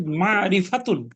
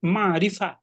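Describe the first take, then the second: First: "মারিফাতুন" with the final "-তুন" sounded; full ending. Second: "মারিফা" ending on an open "-ফা"; pausal form. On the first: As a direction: say "মারিফাতুন" without the pausal cut. ("মারিফাতুন" শেষের "তুন" সহ পূর্ণ উচ্চারণ) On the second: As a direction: stop on "মারিফা", dropping the "-তুন". ("মারিফা" ওয়াকফ করে) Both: Shown as a demonstration. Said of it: "ওয়াকফ করলে".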